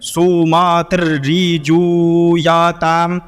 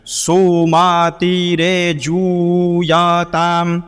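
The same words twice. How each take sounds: First: सोमातिर्रीजूयाताम chanted with a long "ree"; the discouraged way to chant सोमातिर्रीजूयाताम; less good pronunciation. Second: सोमातिरेजूयाताम chanted with "re" after सोमाति; the recommended way to chant सोमातिरेजूयाताम; preferred pronunciation. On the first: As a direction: sing सोमातिर्रीजूयाताम with a doubled r and "ree". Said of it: "ये ज़्यादा अच्छा नहीं होगा". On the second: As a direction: sing सोमातिरेजूयाताम slowly with a clear "re". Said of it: "पहले वाले की तरह ही उच्चारण करना है". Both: Shown as a demonstration.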